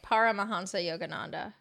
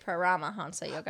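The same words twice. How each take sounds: First: The stress is on the first syllable, par. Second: The stress falls on a later syllable. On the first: "I guess I say it with par" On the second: "You say Paramahansa Yogananda"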